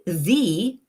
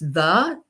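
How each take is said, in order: First: The vowel sounds like 'ee'. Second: The vowel sounds like 'uh'. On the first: It is the form used before a vowel. "spell it T H E" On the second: It is the form most often used. "spell it T H A"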